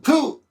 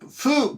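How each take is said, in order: First: The syllable begins with a p sound. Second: The syllable begins with a soft f sound. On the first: This is the reading after another character in a compound. "an F sound will often change to a B or P" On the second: This is the reading of the character on its own. "the actual word is usually pronounced fu"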